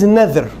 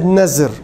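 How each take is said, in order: First: The middle consonant is a voiced th sound. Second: The middle consonant is a buzzing z sound. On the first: The speaker calls it right. "In Arabic is nadhr" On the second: The speaker calls it wrong. "They use the Z instead of TH or DH"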